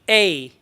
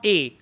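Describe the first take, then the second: First: The vowel glides in a curved sound. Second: The vowel is flat, without a glide. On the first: The speaker calls it right. "it's the curvy sound" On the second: The speaker calls it wrong. "It's not A"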